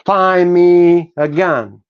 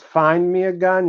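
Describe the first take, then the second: First: "Find" said as "fine", slow and loud; dropped final d. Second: "find" said with a clear final d; "find" with full d; final d kept. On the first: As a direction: drop the d in "Find", stretch it. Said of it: "you say". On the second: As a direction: sound the d in "find". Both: Shown as a demonstration.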